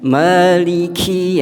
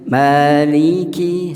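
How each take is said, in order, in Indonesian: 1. Huruf k memiliki hembusan napas yang terlalu banyak. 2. Huruf k hanya memiliki hembusan napas yang sedikit. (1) "jangan maliki, yaitu kebanyakan" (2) "sedikit saja"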